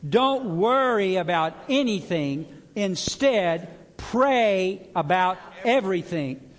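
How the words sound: It is said with strong conviction.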